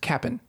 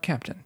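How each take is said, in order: First: The word is reduced to a short 'cap-n'. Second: The word is said in full as 'cap-tin'. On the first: The speaker calls it right. "it's Cap'n" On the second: The speaker calls it wrong. "not Captain"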